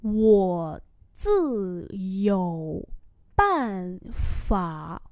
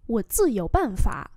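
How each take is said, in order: First: Very slow, separated syllables; slow model reading. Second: Said in the usual way. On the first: Shown as a demonstration. Teacher repeating a phrase for learners, very slowly.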